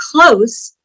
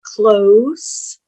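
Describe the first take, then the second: First: "Close" ending in a hissing s. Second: "Close" ending in a buzzing z. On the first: Teacher showing the adjective, "Close" ending in s. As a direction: say "Close" as in near, with s. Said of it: "close means to shut the door". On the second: Teacher showing the verb, "Close" ending in z. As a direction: say "Close" as in shut the door, with z. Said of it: "Here's another one". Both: Shown as a demonstration.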